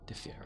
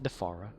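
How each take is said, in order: First: The second syllable sounds like 'fear'. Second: The second syllable sounds like 'far'. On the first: The speaker calls it right. "D. Fear" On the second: The speaker calls it wrong. "Not Defara. There's no A there"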